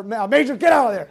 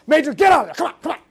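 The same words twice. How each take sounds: First: Mild mock yell. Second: Louder, higher retold yell; yelling at the dog. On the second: Ordering the dog out from under his bed, retold loud yell. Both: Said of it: "yelling at Nellie".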